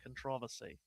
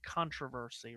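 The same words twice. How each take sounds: First: It is said the British way. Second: It is said the North American way. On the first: The speaker calls it wrong. "rather than controversy" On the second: The speaker calls it right. "you have to say it controversy"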